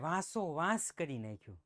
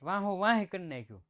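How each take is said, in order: First: Standard Gujarati, with a clear s sound. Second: A Kathiyawadi accent, with h in place of s. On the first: "શુદ્ધ ગુજરાતી કરો" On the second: "આ કાઠિયાવાડી લહેકો"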